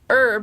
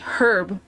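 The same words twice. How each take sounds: First: The word starts with a silent H. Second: The word starts with a pronounced H. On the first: "which is how you're supposed to say it because it's a French-based word and they don't pronounce the H in it" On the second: "they say herb"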